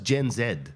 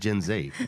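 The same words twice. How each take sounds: First: The letter Z is said the Australian way. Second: The letter Z is said the American way. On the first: The speaker calls it right. "over here" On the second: The speaker calls it wrong. "everyone says"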